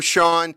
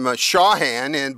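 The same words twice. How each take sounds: First: The h in the middle is silent. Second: The h in the middle is pronounced. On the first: The speaker calls it right. "he has a silent H-A-N on the end of it" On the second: The speaker calls it wrong. "I keep wanting to call him Shawhan"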